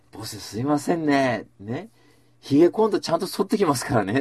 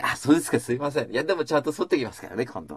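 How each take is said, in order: First: Smiling apology. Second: Cheerful reassurance. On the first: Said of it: "って言ったの、笑顔で。". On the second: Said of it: "笑顔で返されたわけ". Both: Retold or imitated.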